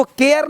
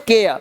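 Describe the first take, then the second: First: केयर with a fully sounded R; wrong pronunciation. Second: केयर with the final R barely sounded; correct pronunciation. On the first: Teacher shows what not to say, full R. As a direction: voice the final R in केयर. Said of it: "नहीं बोलते". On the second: Teacher shows the right way, R nearly silent. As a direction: let केयर fade out on a softened R. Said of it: "इसको बोलते हैं". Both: Shown as a demonstration.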